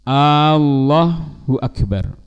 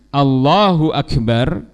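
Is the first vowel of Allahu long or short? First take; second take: long; short. First: The first vowel of Allahu is drawn out long. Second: The first vowel of Allahu is kept short. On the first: It turns into a question: is God great? The speaker calls it wrong. "dipanjangkannya hamzah dalam lafzul jalalah" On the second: It states that God is the greatest. The speaker calls it right. "yang seharusnya"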